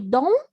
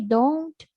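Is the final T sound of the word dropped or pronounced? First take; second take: dropped; pronounced. First: The final T sound is dropped. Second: The final T sound is clearly pronounced. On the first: "Native people normally don't pronounce the T. They say only don't" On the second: "If you want to pronounce, no problem. You can say don't"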